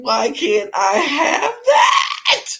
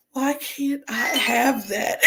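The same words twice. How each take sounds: First: Much higher, louder and slow, breaking with laughter and tears; real laughing sob, shouted slowly; laugh-crying shout. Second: Slow, higher, plaintive question; mild mock longing, slow; wistful plea. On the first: Real, not acted. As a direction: lose it completely while asking. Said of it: "I lost it". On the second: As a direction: ask it slowly like you're aching for it. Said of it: "everybody else's story was like".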